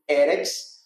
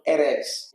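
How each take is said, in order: First: "eretz" with a strong first syllable, E-retz; first-syllable stress. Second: "eretz" with the stress moved to the end, e-RETZ; last-syllable stress. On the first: Teacher reading correctly with the Masoretic sign, first-syllable stress. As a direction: lean on the opening E of "eretz". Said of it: "com a sílaba tônica na primeira". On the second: Teacher showing how not to read it, last-syllable stress. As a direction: wrongly punch the final syllable of "eretz". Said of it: "e não eretz". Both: Shown as a demonstration.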